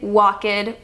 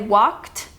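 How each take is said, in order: First: The -ed is spoken as a separate syllable. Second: The -ed adds no extra syllable. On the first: The speaker calls it wrong. "You don't say walked" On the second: The speaker calls it right. "You say walked"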